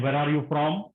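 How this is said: It is asked in a harsh, commanding tone. It is an interrogation of a suspect. The speaker calls it wrong. "It's like a police inspector asking a criminal"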